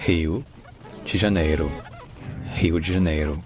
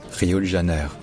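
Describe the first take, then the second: First: "Rio de Janeiro" as HEE-oo djee zha-NAY-roo; portugais brésilien. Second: "Rio de Janeiro" with French r and French vowels; fausse prononciation brésilienne. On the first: Shown as a demonstration. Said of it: "Ça se dit, écoutez bien". (« Rio de Janeiro » prononcé à la brésilienne) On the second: Retold or imitated. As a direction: imitate a French speaker attempting "Rio de Janeiro". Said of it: "ça ne se dit pas comme ça". (« Rio de Janeiro » mal imité à la française)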